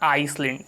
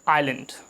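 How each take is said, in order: First: An s sound is heard after the first vowel. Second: No s sound is heard after the first vowel. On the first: The speaker calls it wrong. "This is not आइसलैंड" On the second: The speaker calls it right. "यहाँ पर जो एस है वो silent होता है। This is आइलैंड"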